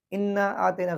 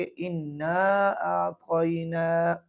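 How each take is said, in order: First: आतेना said with a plain e vowel; wrong demo आतेना without the stretch; wrong reading. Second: आतैना said slowly with the long stretched vowel; slow correct इन्ना आतैना; correct reading. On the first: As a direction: read आतेना quickly, short vowel. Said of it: "गलत है". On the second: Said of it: "बल्कि". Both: Shown as a demonstration.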